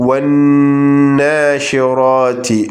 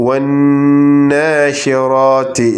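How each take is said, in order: The two takes are said the same way.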